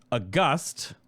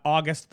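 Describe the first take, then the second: First: "August" stressed on the second syllable, drawn out slowly; adjective pronunciation. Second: "August" stressed on the first syllable; month pronunciation. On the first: Host showing viewers the right word, adjective pronunciation. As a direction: slowly say "August" as uh-GUST, not the month. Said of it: "that word, not August the month, but August". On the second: Host contrasting the month with the adjective, month pronunciation. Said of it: "not August the month". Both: Shown as a demonstration.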